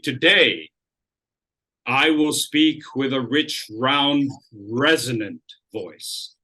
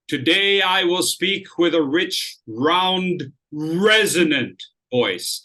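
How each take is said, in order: First: The word today carries the main stress. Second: The word resonant carries the main stress. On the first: "and now I'm keying today" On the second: "If I want to key this word, resonant"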